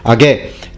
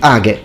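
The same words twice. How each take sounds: First: The stress is on the last syllable. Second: The stress is on the first syllable. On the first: The speaker calls it wrong. "the occasional stress that is misplaced" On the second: The speaker calls it right. "it should be age. the accent should be at the beginning"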